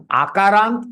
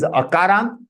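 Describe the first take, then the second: First: Akarant starting with a long open "aah"; long initial vowel. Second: Akarant starting with a short "uh"; short initial vowel. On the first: Teacher contrasts two terms for students, Akarant with long first vowel. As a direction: begin Akarant as "aah-kaarant". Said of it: "Ka is Akarant". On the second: Teacher contrasts two terms for students, Akarant with short first vowel. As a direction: begin Akarant as "uh-kaarant". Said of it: "this is Akarant". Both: Shown as a demonstration.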